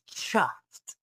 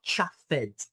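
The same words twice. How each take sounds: First: "chuffed" in one syllable, "chuft"; correct T ending. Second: "chuffed" in two syllables, "chuff-ED"; mispronounced ending. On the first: Teacher corrects the ending for learners, "chuffed" said as "chuft". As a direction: end "chuffed" on a crisp T, no "ed" syllable. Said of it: "So the E D becomes T". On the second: Teacher shows learners the wrong ending, "chuffed" said as "chuff-ed". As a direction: sound out the E-D of "chuffed" as a separate "ed". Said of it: "the end is not chuffed". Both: Shown as a demonstration.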